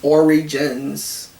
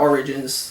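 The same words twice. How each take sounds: First: The word is clearly said as origins. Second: The word is slurred to sound like oranges. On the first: The speaker calls it right. "No, it's Origins. There we go" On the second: The speaker calls it wrong. "Almost sounds like I said oranges"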